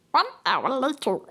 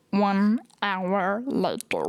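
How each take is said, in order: First: Dramatic narrator. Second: Slow, low narrator voice that came out like Stitch; a slow, low announcer take that slips into Stitch. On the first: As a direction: announce it like a documentary card. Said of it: "making something serious". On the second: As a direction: drag it out in a growly cartoon way. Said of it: "That sounds more like Stitch". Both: Shown as a demonstration.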